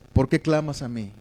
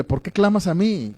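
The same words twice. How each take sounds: First: Lightly acted fatherly care, no blame; tender question. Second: Mock-scolding question lifted in pitch; mild reproach. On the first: God coming with this question in the preacher's reading, tender. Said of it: "Dios es tierno contigo". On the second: God questioning Moses as some preachers present it, mildly reproachful. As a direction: challenge him lightly, as if he should know better. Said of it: "pareciera que es como un reproche".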